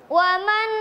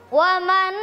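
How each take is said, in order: No difference in how they are said.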